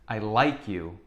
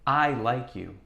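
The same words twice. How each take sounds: First: The word like is stressed. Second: The word I is stressed. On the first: The affection is genuine. "when we emphasize the word like" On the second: The speaker, not someone else, is the one who likes. "let's emphasize the word I"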